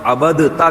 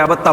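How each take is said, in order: First: A d sound is heard before the t. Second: The d merges into a double t sound. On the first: The speaker calls it wrong. "लिखी जाती है दाल मगर पढ़ी नहीं जाती" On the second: The speaker calls it right. "अबत्ता पढ़ते हैं उसको"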